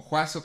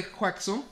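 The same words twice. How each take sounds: First: Juazo without any K sound. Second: X in Juaxo as KS. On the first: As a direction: say Juazo with a plain S. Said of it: "como yo lo digo". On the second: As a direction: say Juaxo with a clear KS. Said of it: "La bronca de, del apodo de". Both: Shown as a demonstration.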